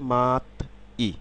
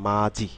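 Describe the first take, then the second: First: Syllables are split, with a t sound before i. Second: Syllables are joined, with a j sound before i. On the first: "syllable অনুসারে উচ্চারণ করলে" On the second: "যখন আমরা এটি শব্দে উচ্চারণ করব"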